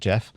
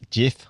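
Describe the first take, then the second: First: The name is said with a British vowel. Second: The name is said with a New Zealand vowel. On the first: The speaker calls it wrong. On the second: The speaker calls it right. "it's a Kiwi plumber"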